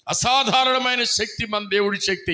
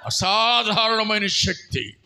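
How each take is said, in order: First: Said in the usual way. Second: అసాధారణమైన drawn out slowly and stressed; slow emphatic call. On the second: Shown as a demonstration. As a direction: lead the congregation, stretching అసాధారణమైన. (అసాధారణమైన అని నెమ్మదిగా ఒత్తి పలకండి) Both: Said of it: "చెప్పండి".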